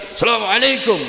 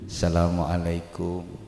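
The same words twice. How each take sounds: First: It is said loudly in a high pitch. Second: It is said calmly in a lower pitch. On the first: "mengangkat kedua tangan nada tinggi" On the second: This is how people greet when visiting locally. "Tapi kalau di kita kan enggak"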